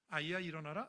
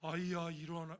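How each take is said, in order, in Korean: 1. 평범한 일상의 목소리로 말하고 있어요. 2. 장엄하고 거룩한 목소리로 말하고 있어요. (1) "이게 평범한 말이에요" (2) "거룩한 홀리 보이스로"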